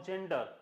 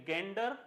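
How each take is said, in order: First: जेंडर with a j sound; soft-g misreading. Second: गेंडर with a hard g; hard-g reading. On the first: Teacher offers class the other reading, soft-g जेंडर. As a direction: say जेंडर starting like jam. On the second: Teacher asks class how to read it, hard-g गेंडर. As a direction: say गेंडर starting with g as in go. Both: Shown as a demonstration. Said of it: "अब इसको क्या पढ़ेंगे".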